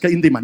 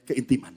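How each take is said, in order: First: The word is said more loudly. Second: The word is said at normal loudness.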